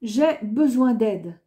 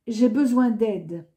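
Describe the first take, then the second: No difference in how they are said.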